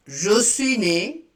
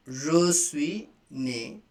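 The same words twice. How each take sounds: First: Said in the usual way. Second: Je suis né drawn out slowly; slow repeat. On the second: Shown as a demonstration. Teacher slowing the phrase so students can repeat. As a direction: say it slowly for learners. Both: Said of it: "like this".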